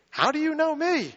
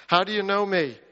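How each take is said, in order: First: High, amazed asking; astonished question. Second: Said in the usual way. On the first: Acted. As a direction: gasp out the question in wonder.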